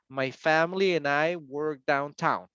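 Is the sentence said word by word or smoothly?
smoothly. The whole sentence flows without pauses. The speaker calls it right. "Tiene que dar toda la oración completa. That's fluency"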